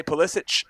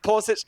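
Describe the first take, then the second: First: Pulisic as "puh-LISS-itch"; Pulisic stressed on the middle syllable, ending in "ch"; own pronunciation. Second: Pulisic as "PULL-ih-sitch"; Pulisic with high first-syllable stress, ending in "ch"; quoted pronunciation. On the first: Shown as a demonstration. Comparing the hosts' versions, Pulisic as "puh-LISS-itch". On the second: Retold or imitated. Comparing the hosts' versions, Pulisic as "PULL-ih-sitch". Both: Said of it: "We all said it three differently".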